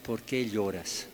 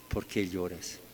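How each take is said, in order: First: En voz baja, con ternura, "¿Por qué lloras?" con "qué" marcado; pregunta suave de ángel. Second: Más grave y mucho más suave, "¿Por qué lloras?" apagándose; repítelo como un eco tierno y bajo; repetición casi susurrada. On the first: (el ángel le pregunta a María con suavidad) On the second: (el ángel repite la pregunta a María, muy bajito) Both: Retold or imitated. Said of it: "que preguntan a María".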